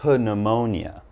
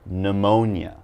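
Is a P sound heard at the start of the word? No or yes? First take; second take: yes; no. First: The word begins with a P sound. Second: The word begins with an N sound. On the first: The speaker calls it wrong. "I'm not going to say pneumonia" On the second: The speaker calls it right. "The P is silent"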